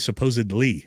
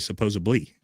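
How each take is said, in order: First: The middle consonant is a plain 'd' sound. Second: The middle consonant is a 'b' sound. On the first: "I don't say supposedly" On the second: "I say supposedly with a B"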